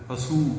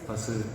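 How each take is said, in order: First: The final vowel is said with rounded lips. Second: The final vowel is said with spread lips. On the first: The speaker calls it wrong. "பசு பசு சொல்ல மாட்டோம்" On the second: The speaker calls it right. "பசு அது மாதிரி"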